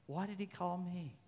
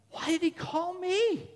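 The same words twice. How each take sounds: First: Much softer, reflective question; hushed wondering. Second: High, drawn-out incredulous question; acted astonishment. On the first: Acted. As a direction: ask it quietly, as if to yourself. Same question, hushed repeat. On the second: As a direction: ask it in high-pitched wonder. Preacher voices his own wonder.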